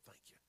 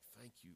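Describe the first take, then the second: First: It is said quietly and timidly. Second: It is said loudly and boldly. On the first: The thanks is meant to go unnoticed. The speaker calls it wrong. "which means he was not timid. He went, "I don't want anybody to hear me" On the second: The thanks is given openly, without concern for others. The speaker calls it right. "he was in a loud voice. It was like"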